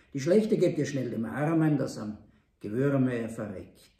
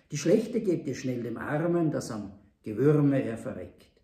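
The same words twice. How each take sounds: No difference in how they are said.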